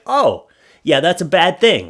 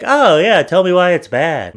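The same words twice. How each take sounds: First: Said in the usual way. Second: Mock dumb reader. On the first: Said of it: "be like". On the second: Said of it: "thinks like".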